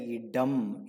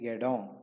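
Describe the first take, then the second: First: The word ends in a full, clear m. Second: The word ends in a faint nasal sound. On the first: The speaker calls it wrong. "You don't say yedam" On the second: The speaker calls it right. "almost silent with a nasal sound"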